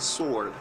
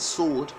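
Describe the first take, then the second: First: It is said in an American accent. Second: It is said in a non-American accent. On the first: "the Americans would say sword" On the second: "So that's sword"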